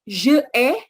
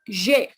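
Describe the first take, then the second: First: The two words are said separately, two syllables. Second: The vowel is dropped, one joined syllable. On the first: The speaker calls it wrong. "itu pastinya kurang enak ya" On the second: The speaker calls it right. "kita e-nya hilangkan"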